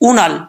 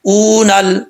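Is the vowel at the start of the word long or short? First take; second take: short; long. First: The first vowel is short and clipped. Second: The first vowel is drawn out long. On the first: The speaker calls it right. "सिर्फ हमज़ा का साउंड आएगा पेश की सूरत में" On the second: The speaker calls it wrong. "ये जो ऊ करते हैं ना, ये गलत तरीका है"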